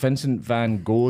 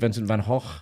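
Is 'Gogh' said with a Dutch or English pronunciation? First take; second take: English; Dutch. First: Gogh is said with an English pronunciation. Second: Gogh is said with a Dutch pronunciation. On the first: The speaker calls it wrong. "as we would say" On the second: The speaker calls it right. "is actually"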